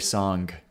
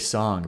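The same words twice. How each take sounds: First: The final g sound is clearly pronounced. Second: The final g sound is dropped. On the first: "but I don't say song" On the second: "I say song"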